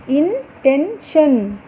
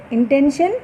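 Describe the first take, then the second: First: Very slow, each syllable separated, falling at the end. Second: Said in the usual way. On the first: Shown as a demonstration. Teacher sounding out syllables slowly for the class. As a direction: spell it out in beats.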